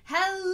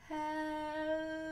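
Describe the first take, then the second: First: It is said very loudly. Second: It is said very slowly.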